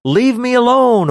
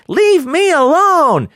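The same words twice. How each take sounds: First: High mock plea; a pitched-up leave me alone; demon pleading. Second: High, slow mock whine; kid screaming at sibling. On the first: Shown as a demonstration. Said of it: "actually means something more like". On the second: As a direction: stretch it out like a squabbling kid. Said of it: "instead of screaming out things like".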